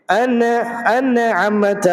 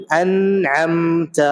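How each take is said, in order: First: انعمت said as a separate ان then نعمت, the wrong way; wrong split reading. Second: انعمت said as one joined word, slow and drawn out; correct recitation. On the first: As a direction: break انعمت into ان and نعمت, raised and slow. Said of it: "ان نہیں ہونا چاہیے". (انعمت کو ان الگ کر کے غلط پڑھنا) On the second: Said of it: "اس طرح سے". (انعمت کو ملا کر، آہستہ صحیح تلاوت) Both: Shown as a demonstration.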